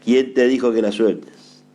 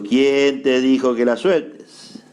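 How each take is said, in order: First: Said in the usual way. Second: Slow, drawn-out "quién te dijo que la sueltes"; emphatic repeat. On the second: Shown as a demonstration. Preacher repeating the question to the congregation, slow and emphatic. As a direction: stretch "quién" and "sueltes" slowly to drive it home.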